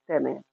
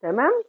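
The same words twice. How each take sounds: First: تمام. low and falling, settled; answering tune. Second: تمام؟ asked with a rising tune; questioning tune. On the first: (تمام. بنبرة إجابة هابطة) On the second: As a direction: ask تمام؟ with a lift at the end. (تمام؟ بنبرة سؤال صاعدة) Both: Shown as a demonstration.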